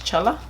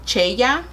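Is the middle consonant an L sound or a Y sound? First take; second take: L sound; Y sound. First: The middle consonant sounds like an L. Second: The middle consonant sounds like a Y. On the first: "Chela in English?" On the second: "In Spanish, I guess it would be Cheya because it's a double L"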